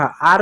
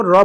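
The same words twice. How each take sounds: First: Said in the usual way. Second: "र", the consonant's sound instead of its name; letter sound of R. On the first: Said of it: "आर को आर नहीं". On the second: Shown as a demonstration. Teacher showing children the sound of R, letter sound "र". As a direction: say R as "र", r plus a short vowel. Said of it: "आर को र पढ़ा".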